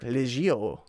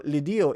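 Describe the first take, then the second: First: The middle consonant is a soft J sound. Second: The middle consonant is a hard D sound. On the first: The speaker calls it right. "It's actually pronounced like Legio" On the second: The speaker calls it wrong. "I know I'm saying that wrong too"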